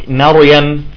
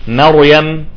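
No difference in how they are said.

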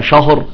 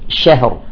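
First: The sh sound is heavy and thick. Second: The sh sound is light and thin. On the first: The speaker calls it wrong. "وليس شهر شا، لا، الشين مرققة" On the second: The speaker calls it right. "الشين مرققة، نقول شهر"

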